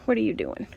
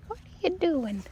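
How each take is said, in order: First: Said in the usual way. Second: Higher, softer playful ask; high coaxing question. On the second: Real, not acted. To a lopped-over tomato plant, a high soft teasing question.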